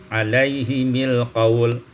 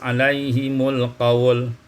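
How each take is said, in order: First: The vowel after the m is i. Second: The vowel after the m is u.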